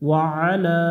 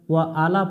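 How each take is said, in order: First: The final a vowel is drawn out long. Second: The final a vowel is kept short. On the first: The speaker calls it right. "এক আলিফ টান দিয়ে পড়তে হয়" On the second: The speaker calls it wrong. "ওয়া আলা পড়া যাবে না"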